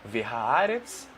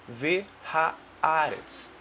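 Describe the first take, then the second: First: It is said at normal running speed. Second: It is said slowly, syllable by syllable.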